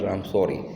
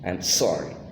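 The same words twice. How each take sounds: First: The S has a weak, short hiss. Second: The S has a strong, clear hiss. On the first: The speaker calls it wrong. "it's not I'm sorry" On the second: The speaker calls it right. "hissing sound"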